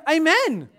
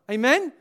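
First: Loud, higher AMEN falling at the end; emphatic amen. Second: Rising, louder AMEN as a question. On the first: Preacher urges church to agree, emphatic AMEN. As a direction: drive AMEN home as a statement. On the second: Preacher asks church to agree, questioning AMEN. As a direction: toss out AMEN with a rise, seeking agreement. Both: Real, not acted.

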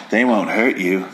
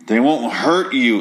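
First: Said in the usual way. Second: Slow, loaded "They won't hurt you" with weight on "hurt"; drawn-out "They won't hurt you", "hurt" stressed, meaningful; heavy hinting. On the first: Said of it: "Tina's like". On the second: Retold or imitated. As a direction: lean on "hurt" so they get the hint. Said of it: "like, really fucking hinting it".

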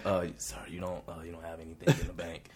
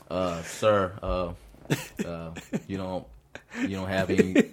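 First: Hushed and softer, delivering bad news; near whisper. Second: Said in the usual way. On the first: Shown as a demonstration. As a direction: lower the voice to a hush for "you don't have anything in the bank". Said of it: "try to whisper it a little bit for 'em". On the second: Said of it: "try to whisper it a little bit".

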